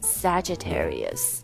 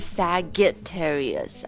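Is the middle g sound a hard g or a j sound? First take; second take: j sound; hard g. First: The middle consonant is a j sound. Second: The middle consonant is a hard g sound. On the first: The speaker calls it right. "是Sagittarius ... 这个G 不发G 的音而是发J 的音" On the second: The speaker calls it wrong. "不是Sagittarius 啊"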